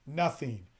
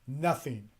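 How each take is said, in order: Both takes have the same delivery.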